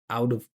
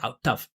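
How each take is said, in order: First: The T is a soft flap linking both words. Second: The T is a hard stop separating the words. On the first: The speaker calls it right. "musically linked, right? With that flap T, you hear the vibration" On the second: The speaker calls it wrong. "I'm not saying"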